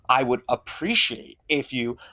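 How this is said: The tone is sarcastic and mocking. The request seems disingenuous. The speaker calls it wrong. "there's that sarcastic tone in the second thing"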